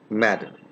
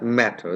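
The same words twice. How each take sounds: First: The middle t is a quick d-like flap. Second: The middle t is a clear, crisp t. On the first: This is how native English speakers say it. "they say" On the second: This is how speakers of our accent say it. "we say"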